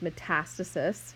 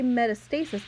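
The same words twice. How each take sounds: First: The word is said in its usual form. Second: The word is split into its Greek parts. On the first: It is the standard clinical form. "Conventionally, when you're using it in a clinical setting" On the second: It follows the original Greek word parts. "I say metastasis because it breaks it into the Greek words"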